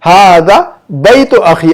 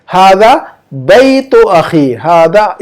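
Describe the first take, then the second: First: हादा बैतु अखी repeated slowly, word by word; slow model reading. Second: हादा बैतु अखी spoken slowly, word by word; slow model reading. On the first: Teacher repeating the Arabic after explaining, slowly. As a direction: say the Arabic again, slow and clear. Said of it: "ये इसमें इशारा इसलिए पहले लाएगी इसको". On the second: Teacher presenting the Arabic answer, slowly. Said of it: "इसकी अरबी बनेगी ऐसे". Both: Shown as a demonstration.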